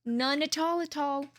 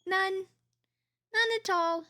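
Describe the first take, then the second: First: Said in the usual way. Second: High, slow, stretched-out None at all; drawn-out teasing. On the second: Real, not acted.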